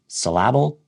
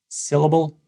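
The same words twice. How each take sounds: First: The stress falls on an unusual syllable. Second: The stress falls on the usual syllable. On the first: The speaker calls it wrong. "that's going to be confusing to the listener" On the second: The speaker calls it right.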